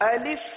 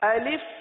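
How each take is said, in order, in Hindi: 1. दूसरी स्वर ध्वनि छोटी i है। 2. दूसरी स्वर ध्वनि छोटी i है।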